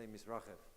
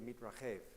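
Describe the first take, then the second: First: It is said with a Yiddish-influenced accent. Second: It is said with a modern Israeli accent.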